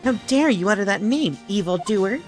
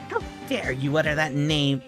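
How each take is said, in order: First: It is said in a little boy's voice. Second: It is said in the speaker's normal voice.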